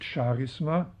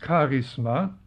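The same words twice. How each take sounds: First: It begins with a sh sound. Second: It begins with a German ch sound. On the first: This is a French way of saying it. The speaker calls it wrong. "nicht Charisma, wie einige meinen, das ist die französische" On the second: This is the Greek way of saying it. The speaker calls it right. "Das griechische Wort ist Charisma ... wie CH im Deutschen ausgesprochen"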